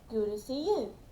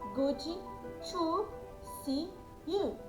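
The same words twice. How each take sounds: First: It is said with a natural native-like accent. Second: It is said with a Brazilian accent.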